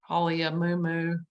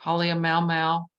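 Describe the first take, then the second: First: Halia Mu Mu, each MU said like moo; alternative pronunciation. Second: Halia Mau Mau, each MAU one syllable rhyming with cow; alternative pronunciation. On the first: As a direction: end Halia Mu Mu on two oo sounds. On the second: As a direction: run A and U together in Mau Mau. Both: Shown as a demonstration. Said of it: "I've heard it pronounced".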